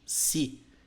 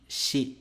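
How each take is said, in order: First: The syllable starts with a plain 's' sound. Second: The syllable starts with a 'sh' sound. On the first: The speaker calls it wrong. "japonês não existe o som de si" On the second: The speaker calls it right. "e sim shi"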